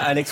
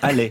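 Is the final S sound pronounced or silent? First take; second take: pronounced; silent. First: The final S sound is pronounced. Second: The final S sound is silent. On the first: The speaker calls it wrong. "On ne dit pas Alex" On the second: The speaker calls it right. "Il ne veut pas qu'on prononce le S"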